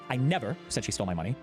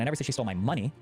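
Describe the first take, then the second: First: The stress is on the word 'never'. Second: The stress is on the word 'money'. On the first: It was simply never said. "I simply did never say it" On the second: She took something else of mine. "I said she stole something of mine, but not my money"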